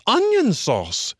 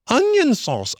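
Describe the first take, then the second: First: High, slow, drawn-out jeer; jeering taunts. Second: High, sing-song jeer; mock the rabbits; jeering taunts. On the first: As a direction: drag out the taunt. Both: A narrator's reading. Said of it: "he remarked jeeringly".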